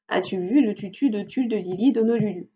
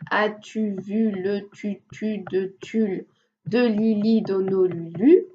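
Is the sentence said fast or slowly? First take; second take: fast; slowly. First: The sentence is spoken fast. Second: The sentence is spoken slowly. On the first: "essayer d'aller de plus en plus vite" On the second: "on peut commencer euh, lentement. Par exemple"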